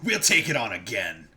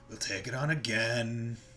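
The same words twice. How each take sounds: First: It is said with excited energy. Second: It is said flat and unexcited.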